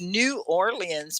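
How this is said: The name is said fully, with all syllables. This is the formal, standard way to say it. "New Orleans is how you'd say it in, you know, formal English"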